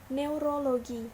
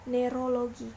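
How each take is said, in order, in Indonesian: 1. Vokal pertama adalah deret eu. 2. Vokal pertama adalah e biasa. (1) "Lafal bakunya yaitu neurologi" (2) "sedangkan lafal tidak bakunya yaitu neurologi"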